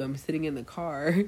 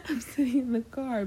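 First: Said in the usual way. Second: High, laughing echo of friend's words; laughing disbelief. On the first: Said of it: "and she's like". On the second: Retold or imitated. Echoing her late friend's excuse to the listeners, high and laughing. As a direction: repeat it in amused disbelief through a laugh.

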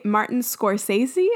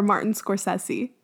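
First: Scorsese with a long AY, "skor-SAY-zee"; pronunciation check. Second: Scorsese with a short E, "skor-SESS-ee"; alternative pronunciation. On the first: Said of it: "Do you guys say". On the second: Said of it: "probably pronouncing things wrong". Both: Shown as a demonstration.

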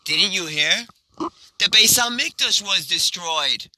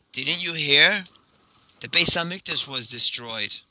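First: Higher, lilting good-news delivery; joyful announcement. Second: Understated grief, falling at the end; mournful reply. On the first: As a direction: share it as happy news. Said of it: "caused them to laugh as well". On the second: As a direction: break sad news with restrained sorrow. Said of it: "he begins crying". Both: Acted.

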